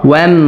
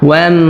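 Both takes have the same delivery.

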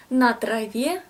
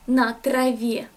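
No difference in how they are said.

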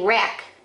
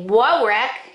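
First: The word starts directly with the r sound. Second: A w sound is voiced before the r. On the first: The speaker calls it right. "you just say wreck" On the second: The speaker calls it wrong. "You don't say whoa wreck"

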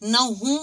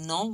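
First: The word is said as two syllables with h. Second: The word is said as one syllable without h. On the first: The speaker calls it wrong. "नहू मास का रिश्ता नहीं है" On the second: The speaker calls it right. "ये है नौ मास का रिश्ता"

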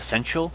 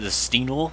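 First: The name is said as 'Sentinel'. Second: The name is said as 'Steenel'. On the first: The speaker calls it right. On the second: The speaker calls it wrong.

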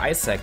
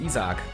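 First: The name is pronounced the English way. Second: The name is pronounced the German way. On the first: "hier Isaac zu sagen" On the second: "Ist ja die deutsche Aussprache und für mich war er immer Isaac"

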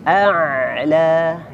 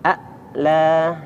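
First: The ain sound flows on, half continued. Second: The ain sound is cut off and held. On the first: The speaker calls it right. "Jadi harus dialirkan setengah mengalir" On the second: The speaker calls it wrong. "kadang kita membacanya tertahan suaranya"

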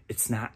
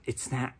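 No difference in how they are said.

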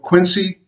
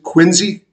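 First: It is said with a standard, non-local pronunciation. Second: It is said with the local native pronunciation.

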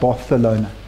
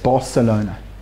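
First: The c is said with a lisped th sound. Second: The c is said as a plain s sound. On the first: This is how people in Barcelona say it. "But they lisp" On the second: This is how people in Madrid say it. "But Madrid, it's Barcelona"

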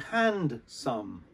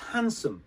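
First: The D is pronounced and the second part is a full 'some'. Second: The D is silent and the second part is reduced to 'sum'. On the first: The speaker calls it wrong. "So you would think it would be hand some, but it's not" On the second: The speaker calls it right. "We don't pronounce the D. So it's handsome"

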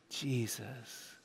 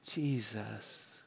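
First: It is said plainly, without strong feeling. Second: It is said with strong passion.

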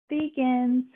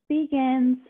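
No difference in how they are said.

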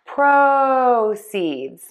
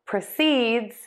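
First: The stress falls on the first syllable. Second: The stress falls on the second syllable. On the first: It is a noun. "Let's start with the noun, stressing syllable number one" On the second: It is a verb. "And now for the verb"

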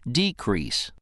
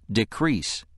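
First: The stress falls on the first syllable. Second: The stress falls on the second syllable. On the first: It is a noun: a lessening. "When it's used as a noun, it's pronounced decrease" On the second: It is a verb: to become less. "When it's used as a verb, it's pronounced decrease"

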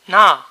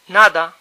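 First: The whole second syllable drops, leaving one syllable. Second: The d between the vowels is fully pronounced.

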